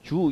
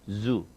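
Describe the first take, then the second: First: The word begins with a j-like sound. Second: The word begins with a buzzing z sound. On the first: The speaker calls it wrong. "동물원 할 때 주 이게 아니고" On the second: The speaker calls it right. "윙윙거리는 것처럼 z 이렇게 해줘야 된다"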